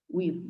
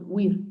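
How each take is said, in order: First: "huir" split slowly as u-ir; correct "huir" in two syllables. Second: "huir" as one gliding syllable, like "wir"; wrong "huir". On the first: Teacher shows the exception to the rule, huir split into two syllables. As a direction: separate the u from the ir in "huir". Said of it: "decimos huir". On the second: Teacher shows what we don't say, huir mispronounced as one syllable. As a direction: run the u into the i in "huir". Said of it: "no decimos huir". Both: Shown as a demonstration.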